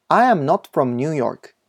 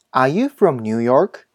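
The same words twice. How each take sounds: First: Said in the usual way. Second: Slow "are you from New York?" rising at the end; rising question. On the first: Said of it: "疑問文は最後を上げる". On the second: Shown as a demonstration. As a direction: lift the pitch on "York" to ask. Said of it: "疑問文は最後を上げるように発音したり". (「are you from New York?」の最後を上げて)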